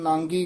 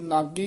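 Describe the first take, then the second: First: The first vowel is nasalized before the g. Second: The first vowel is oral, with no nasal sound. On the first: The speaker calls it wrong. "ਆਮ ਇਹਨੂੰ ਨਾਂਗੀ ਕਹਿ ਦਿੰਦੇ" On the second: The speaker calls it right. "ਇਹ ਨਾਗੀ ਹੀ ਉਚਾਰਨ ਕਰਨਾ ਹੈ। ... ਬਿੰਦੀ ਤੋਂ ਰਹਿਤ"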